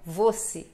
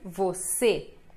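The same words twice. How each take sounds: First: The stress falls on the first syllable. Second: The stress falls on the last syllable. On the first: The speaker calls it wrong. "e não você" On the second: The speaker calls it right. "esta última sílaba é a mais forte"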